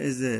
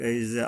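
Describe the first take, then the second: Both takes have the same delivery.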